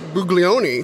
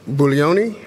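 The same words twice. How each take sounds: First: The G in the name is sounded. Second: The G in the name is silent. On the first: The speaker calls it wrong. "I keep putting the G in there" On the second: The speaker calls it right. "that's better"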